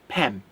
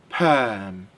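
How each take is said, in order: First: The vowel is short, like in 'pet'. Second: The vowel is long, like in 'her'. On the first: The speaker calls it wrong. "You do not say pem" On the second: The speaker calls it right. "It's perm"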